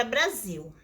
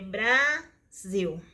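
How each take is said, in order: First: Said in the usual way. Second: "Brasil" slowly as a long bra, pause, sil; split into syllables. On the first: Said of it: "É Brasil". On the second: Shown as a demonstration. Teacher giving another division example, "Brasil" slowly syllable by syllable. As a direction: stretch and divide "Brasil" into two syllables. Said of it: "Vamos no, aos exemplos".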